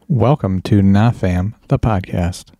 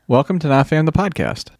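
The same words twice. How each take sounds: First: It sounds flat, quiet and bored. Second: It sounds relaxed and natural.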